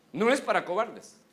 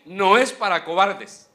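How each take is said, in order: First: Said in the usual way. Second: "no es para cobardes" loud and slow, "es" hammered; preached shout. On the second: Acted. Preacher condemning cowards to the church, loud and slow. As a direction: thunder the verdict. Repeated climax line.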